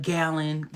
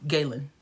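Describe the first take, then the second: First: GALEN with a short A, like GAL-in; mispronounced name. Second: GALEN with a long "ay" in the first syllable; name said correctly. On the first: Retold or imitated. Streamer imitating people who get it wrong, GALEN as GAL-in. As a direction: say GALEN as if it were "Gallon". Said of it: "people will be like". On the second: Shown as a demonstration. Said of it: "That's how I say my name".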